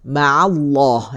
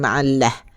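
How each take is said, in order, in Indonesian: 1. L dalam Allah itu tebal. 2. L dalam Allah itu tipis. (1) "Allah lafaz jalalah tebal" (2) "bukan ma'allah"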